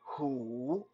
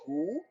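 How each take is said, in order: First: The pitch is not raised. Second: The pitch is brought up. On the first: It means tiger. "if you say hu, it means tiger" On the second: It means fox. "if you bring the tone up a little bit"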